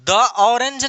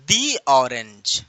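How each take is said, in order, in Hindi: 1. "The" को छोटे, कमज़ोर स्वर से बोला जाता है। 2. "The" को लंबे "ee" स्वर से बोला जाता है। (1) "द ऑरेंज नहीं" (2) "दी ऑरेंज, राइट"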